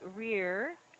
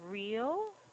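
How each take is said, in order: First: The word ends with an R-like sound. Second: The word ends with a clear L sound.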